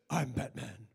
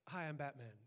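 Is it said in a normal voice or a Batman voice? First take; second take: Batman voice; normal voice. First: It is said in a deep Batman voice. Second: It is said in a plain, normal voice.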